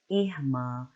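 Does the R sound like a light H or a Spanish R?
light H. The R sounds like a light H. "I speak in R like an H, light H sound"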